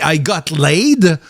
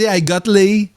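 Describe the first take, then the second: First: The final D sound is clearly pronounced. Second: The final D sound is dropped. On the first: "en anglais, tu prononces le D" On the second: "elle prononce pas le D"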